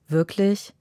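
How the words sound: It sounds disappointed and let down.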